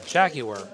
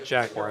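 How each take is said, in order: First: It is said with a British accent. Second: It is said with an American accent.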